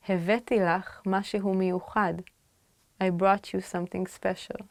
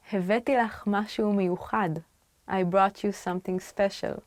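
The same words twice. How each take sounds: The two takes are said the same way.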